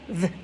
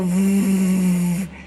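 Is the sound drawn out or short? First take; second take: short; drawn out. First: The v sound is short and clipped. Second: The v sound is long and drawn out. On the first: The speaker calls it right. "but keep it short" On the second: The speaker calls it wrong. "It's fun to go v"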